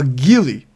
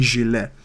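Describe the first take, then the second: First: The word is pronounced like 'ghillie'. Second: The word is pronounced like 'gilet'. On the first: "They call it a ghillie. What the fuck is a ghillie?" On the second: "nobody in America calls it a fucking gilet"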